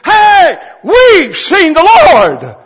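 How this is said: It is said with lively excitement.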